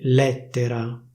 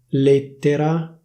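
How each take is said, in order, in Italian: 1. La vocale E è aperta. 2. La vocale E è chiusa. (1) "a Milano si dice lettera" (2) "La pronuncia ufficiale sarebbe lettera"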